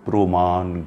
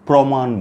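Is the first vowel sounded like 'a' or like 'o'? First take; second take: o; a. First: The first vowel sounds like 'o'. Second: The first vowel sounds like 'a'. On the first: The speaker calls it right. "আমরা বলবো" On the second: The speaker calls it wrong. "প্রমাণ বলবো না"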